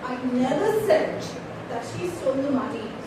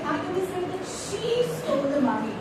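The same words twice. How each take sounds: First: The stress falls on never said. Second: The stress falls on the word she. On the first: It was never actually said. "if I give emphasis on never said" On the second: Someone else stole it. "It's not she, it is somebody else"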